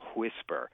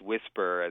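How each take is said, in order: First: It starts with a breathy hw sound. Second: It starts with a plain w sound. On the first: "he almost puts the H before the W" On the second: "It's not just whisper, as most people say it"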